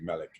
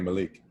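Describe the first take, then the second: First: It is said the Arabic, Middle Eastern way. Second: It is said the African American way.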